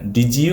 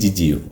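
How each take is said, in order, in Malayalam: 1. ഇത് D ശബ്ദത്തിലാണ് തുടങ്ങുന്നത്, പിന്നെ J. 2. ഇത് J ശബ്ദത്തിലാണ് തുടങ്ങുന്നത്, പിന്നെ J. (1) "ഡാ ജാ വെച്ചിട്ട് പറയാം" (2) "രണ്ട് ജ ജാ- ജാ വെച്ചിട്ട് പറയാം"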